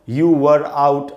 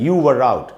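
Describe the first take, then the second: First: The words are said apart without linking. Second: The words run together with a linking r. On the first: The speaker calls it wrong. "ऐसे नहीं पढ़ेंगे ... अलग अलग करके नहीं पढ़ना है" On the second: The speaker calls it right. "ऐसे पढ़ना है"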